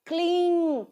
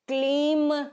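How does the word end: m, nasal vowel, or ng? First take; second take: nasal vowel; m. First: The word ends with a nasalized vowel. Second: The word ends with an m sound. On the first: The speaker calls it right. "क्लीं सही से pronounce करना" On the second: The speaker calls it wrong. "क्लीम नहीं है"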